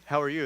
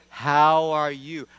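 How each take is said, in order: First: Said in the usual way. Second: Loud, very slow, drawn-out greeting; exaggerated repeat. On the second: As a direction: spell out "How are you?" loudly and slowly as if to someone who didn't hear. Repeats greeting to unhearing cashier.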